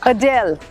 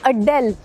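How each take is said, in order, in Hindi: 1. दबाव दूसरे अक्षर पर है। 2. दबाव पहले अक्षर पर है। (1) "जो emphasis है ना वो दूसरी तरफ है, अ पे नहीं है" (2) "उनका नाम हमारे लोग ऐसे क्यों लेते हैं?"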